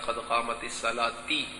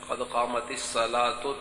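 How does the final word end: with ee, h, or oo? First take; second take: ee; oo. First: The last word ends with an ee vowel. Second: The last word ends with an oo vowel. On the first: The speaker calls it wrong. "बाज लोग कहते हैं ... ये गलत है" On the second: The speaker calls it right. "ता पर पेश है"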